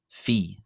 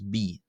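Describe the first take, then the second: First: The letter name begins with an F sound. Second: The letter name begins with a B sound. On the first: This is the more modern pronunciation. "in the Greco-Boharic or more modern pronunciation as Phi" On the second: This is the older pronunciation. "in the old Boharic pronunciation, which I intend to use, this is pronounced as B"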